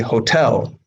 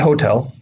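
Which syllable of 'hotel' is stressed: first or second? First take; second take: second; first. First: The stress is on the second syllable. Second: The stress is on the first syllable. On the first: The speaker calls it right. "In the correct English form, the E is stressed. So it should be hotel" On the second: The speaker calls it wrong. "in the Russian incorrect form, the O is stressed"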